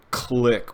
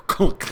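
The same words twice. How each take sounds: First: Said in the usual way. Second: High, laughing imitated click. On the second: Retelling the door latch, laughing mock click. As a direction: chuckle through the sound effect.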